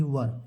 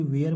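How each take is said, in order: First: वर as one short syllable; correct pronunciation. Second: वेयर with a long e glide; common misreading. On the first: Teacher giving children the right reading, short वर. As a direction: say वर with a short vowel. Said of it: "जो सही में पढ़ा जाता है". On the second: Teacher quoting many readers' mistake, वेयर with long e. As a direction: read वेयर like English wear. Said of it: "बहुत लोग इसे वेयर पढ़ते हैं". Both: Shown as a demonstration.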